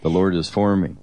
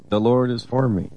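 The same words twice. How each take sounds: First: Said in the usual way. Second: Higher, ringing declaration of faith; declared affirmation. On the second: Shown as a demonstration. Husband shows the morning affirmation to his wife, higher and proclaimed. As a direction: proclaim it like a morning victory cry. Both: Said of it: "We get up in the morning and say that".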